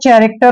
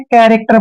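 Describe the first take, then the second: First: The word begins with a 'ch' sound. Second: The word begins with a 'k' sound. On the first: The speaker calls it wrong. "इसको आपने चैरेक्टर नहीं पढ़ना है" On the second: The speaker calls it right. "कैरेक्टर पढ़ना है"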